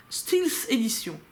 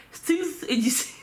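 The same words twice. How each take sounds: First: Stealth said like "stils", slow and drawn out; mangled English, can't say it right; odd pronunciation. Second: "Stealth" as "stils" through laughter; laughing at her own English; laughing mispronunciation. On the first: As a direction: say "Stealth" as "steels". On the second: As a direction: giggle while mangling the word. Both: Real, not acted. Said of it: "je sais pas pourquoi je le dis comme ça".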